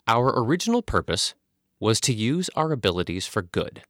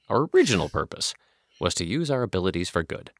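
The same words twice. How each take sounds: First: No words in the sentence get special stress. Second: The words 'original purpose' get special stress. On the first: The speaker calls it wrong. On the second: The speaker calls it right.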